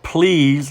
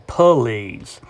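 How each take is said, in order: First: Said in the usual way. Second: "police" said as please stretched to two syllables, puh-LEEZ. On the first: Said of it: "Or instead of". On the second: Shown as a demonstration. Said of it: "they might say".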